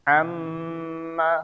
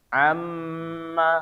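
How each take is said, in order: The two takes are said the same way.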